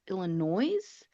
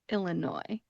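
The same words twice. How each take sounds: First: The word ends with an audible S sound. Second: The word ends without an S sound. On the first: The speaker calls it wrong. "it looks like it should be pronounced Illinois because it does end with an S" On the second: The speaker calls it right. "we are going to leave off that final S"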